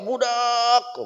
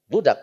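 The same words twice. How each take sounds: First: The vowel is drawn out long. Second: The vowel is short and plain. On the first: Calling out to many people or scolding. "panjang budak teh" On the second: The word's original, ordinary form. "aslinya mah"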